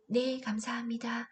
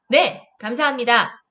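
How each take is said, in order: First: It is said in a small, quiet voice. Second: It is said in a loud, confident voice. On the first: The speaker seems passive. The speaker calls it wrong. "이렇게 작은 목소리로" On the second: The speaker seems self-assured. The speaker calls it right. "자신감 넘치게"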